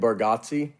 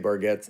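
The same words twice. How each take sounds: First: The name is said in an Italian way. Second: The name is said in a Southern American way. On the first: The speaker calls it right. "I think it's supposed to be Bargazzi" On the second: The speaker calls it wrong. "we say Bargazzi. Like it's just we've southerned it up"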